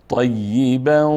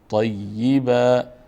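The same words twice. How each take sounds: First: The ending n merges into the following w. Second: The word ends with a stop on a long a. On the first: "اگر وصل کردیم با حرف بعدی که حرف واو هست ادغام میشه" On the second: "در صورت وقف"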